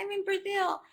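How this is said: It is said in a happy, excited tone. The speaker is pleased to be there. "if I'm happy and I'm saying something with a happy intonation and excited"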